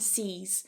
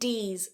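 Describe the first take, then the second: First: The word begins with an s sound. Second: The word begins with a d sound. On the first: "or sis and c's" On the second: "Make sure you're not saying dis and dees"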